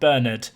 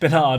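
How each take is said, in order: First: The name is said the non-American way. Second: The name is said the American way. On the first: "not Bernard" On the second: "He's now American"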